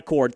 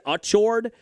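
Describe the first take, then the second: First: The name sounds like the word 'accord'. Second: The name begins with an 'achoo' sound. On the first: "not Accord" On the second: "like Achu was how they said it"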